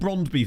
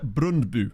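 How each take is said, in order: First: The name is said with plain English sounds. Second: The name is said with imitated Danish sounds. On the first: "I'll just call them Brondby then" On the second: "I thought it was pronounced like Brundbu or something"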